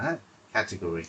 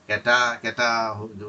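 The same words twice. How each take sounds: First: Said in the usual way. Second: ক্যাটা said with an open "ke" vowel, louder; loose pronunciation. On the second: Shown as a demonstration. Teacher showing how ক্যাটাগরি sounds when spoken, e vowel. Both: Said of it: "উচ্চারণ করলে এ হয়ে যাবে".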